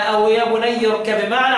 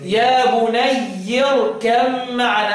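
First: بني ending in a clipped kasra; يا بني closing on i; kasra reading. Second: بني with an open final a, slow; يا بني ending on a clear fatha; fath reading. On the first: (يا بنيِّ بالكسر) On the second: (يا بنيَّ بالفتح) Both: Shown as a demonstration. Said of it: "على حسب الإيه؟ القراءة".

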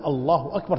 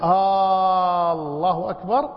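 First: Said in the usual way. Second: آه held long, أكبر rising as a question; asking with long alef. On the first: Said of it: "تقول الله أكبر تقرير". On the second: Shown as a demonstration. Teacher shows takbir turned into question, long alef, rising. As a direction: stretch آه and end أكبر on a lift. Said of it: "لكن عندما تسأل".

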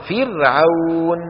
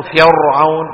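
First: فرعون drawn out slowly with a thin, light ra; correct light ra. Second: فرعون said louder with a thick, heavy ra; wrong heavy ra. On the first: Teacher giving students the correct light ra. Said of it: "منرقق". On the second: Teacher showing students the wrong heavy ra. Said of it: "ولا نقول فرعون". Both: Shown as a demonstration.

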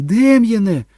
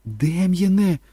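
First: Very high, loud scream at her son; full scream. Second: Higher-pitched cry to her son; shout. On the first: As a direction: scream his name in panic. (відчайдушний крик) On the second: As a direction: call out to the boy in alarm. (стривожений окрик) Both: A narrator's reading. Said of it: "закричала Кетрін".

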